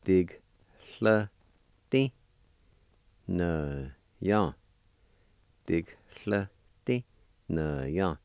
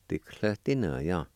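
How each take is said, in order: First: Dig, hla, ti, na, ya with a gap after each syllable; syllable-by-syllable demo. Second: Said in the usual way. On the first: Shown as a demonstration. Teacher showing the word for grindstone, Dig, hla, ti, na, ya separated. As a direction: sound out Dig, hla, ti, na, ya piece by piece. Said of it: "you can pronounce the G sound with the D I like this". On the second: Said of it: "like this".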